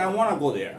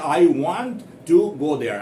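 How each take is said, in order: First: The t in 'want' is soft or silent. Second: The t in 'want' is pronounced clearly and emphatically. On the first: "They pronounce it softly, either softly or often absolutely silent" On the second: "In India, we say"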